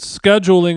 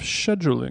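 First: It is said in a non-British, non-London way. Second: It is said in a British, London way. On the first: This is how the guest actually said it. "How come you said scheduling" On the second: This is how someone from London would say it. "You spend so much time in London"

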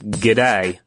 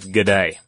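First: The D is short and the final vowel long. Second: The D is longer and the final vowel short. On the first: The speaker calls it right. "The D is short and the AI sound is long on the end" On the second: The speaker calls it wrong. "instead of"

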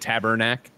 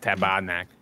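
First: It is said with an American accent. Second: It is said with a Quebecois accent.

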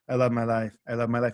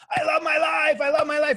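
First: It is said flatly, without feeling. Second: It is said with strong, felt emotion.

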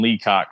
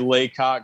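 First: The first syllable sounds like 'lee'. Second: The first syllable sounds like 'lay'. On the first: The speaker calls it right. "He confirmed it as Nathan Leacock" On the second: The speaker calls it wrong. "I've heard some people say Laycock"

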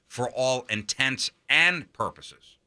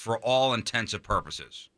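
First: The words 'intents and' are said clearly apart. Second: The words 'intents and' blur into one word. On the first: The speaker calls it right. "The correct way to say it is, Intents as in intentions" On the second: The speaker calls it wrong. "that's not how you say that"

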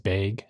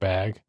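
First: The vowel sounds like the one in 'beg'. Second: The vowel sounds like the one in 'bat'. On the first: This is how a Wisconsin speaker says it. "he says bag" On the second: This is the usual way to say it. "instead of bag"

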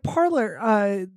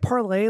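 First: The name ends in an 'er' sound. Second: The name ends in an 'ay' sound. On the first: It is the everyday American way to say it. "I'm going to pronounce it the American way" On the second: It mocks the name by sounding fancy. "are we pronouncing it Parlay, like to be sarcastic?"

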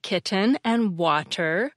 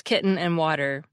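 First: The T sounds are clearly pronounced. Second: The T sounds are swallowed as glottal stops.

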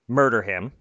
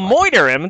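First: The word is said plainly, with an r sound. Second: The word is said jokily, like 'moider', without r. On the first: The threat sounds serious. The speaker calls it wrong. "If you say murder him, that's inappropriate in boxing" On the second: The threat is playful and not meant seriously. The speaker calls it right. "If you say moiter, you know, I'll moiter him, then we know you're kind of being silly about it"

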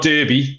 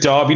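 First: The first syllable sounds like 'der'. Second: The first syllable sounds like 'dar'. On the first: The speaker calls it wrong. "not Derby" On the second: The speaker calls it right. "I am sticking with Derby"

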